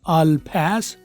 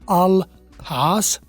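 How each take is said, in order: First: It is said in an American accent. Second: It is said in a British accent. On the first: "American" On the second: "British"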